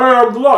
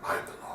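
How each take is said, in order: First: It is said in a jokey, campy way. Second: It is said in a menacing, badass way.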